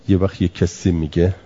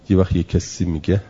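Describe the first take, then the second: The two takes are said the same way.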